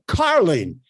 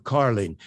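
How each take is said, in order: First: Carling punched with a big pitch swing; emphasize Carling with projection; stress on CARLING. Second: Said in the usual way. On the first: Shown as a demonstration. Coach showing which word to lift, emphatic Carling. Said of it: "You need to emphasize this word". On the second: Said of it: "emphasize this word, uh, uh, Carling instead of Carling".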